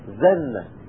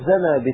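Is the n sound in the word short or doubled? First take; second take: doubled; short. First: The n sound is doubled and held longer. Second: The n sound is short and single. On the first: It means he committed adultery. "وروي بتشديدها" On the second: It means he pressed hard on someone. "بتخفيف النون"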